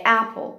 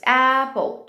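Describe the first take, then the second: First: Said in the usual way. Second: APPLE split into "a" and "pple"; broken into syllables. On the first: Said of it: "quando eu falo". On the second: Shown as a demonstration. Teacher asking how many syllables, broken up. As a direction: stretch APPLE into two separate syllables. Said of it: "quantas sílabas?".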